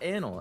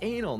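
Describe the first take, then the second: First: It sounds like 'analyst' with the ending cut. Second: It does not sound like 'analyst' shortened. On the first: The speaker calls it wrong. "not anal. ... analyst. So I just cut off the ist" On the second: The speaker calls it right. "It's anal"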